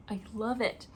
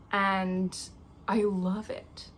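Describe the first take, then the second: First: Said in the usual way. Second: Whisper. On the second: Real, not acted. Whispering to herself about the birthday candle. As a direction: hush it, savouring the scent.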